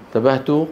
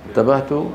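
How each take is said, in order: Both takes have the same delivery.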